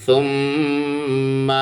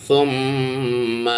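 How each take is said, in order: The two takes are said the same way.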